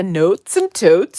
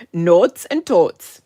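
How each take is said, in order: First: Said in the usual way. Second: Slow, louder, stretched Minnesota vowels on Notes and Totes; full Minnesota accent. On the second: Shown as a demonstration. Showing viewers her Minnesota accent, slow and loud. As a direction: really pull out the long Minnesotan o in Notes and Totes. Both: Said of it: "let me really pull it out".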